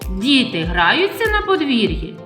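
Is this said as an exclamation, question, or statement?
question. It is said with a questioning tune. It asks whether this is happening. "а якщо ми змінимо інтонацію, і я у вас запитаю"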